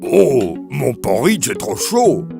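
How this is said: A deep, gruff voice, like Papa Bear.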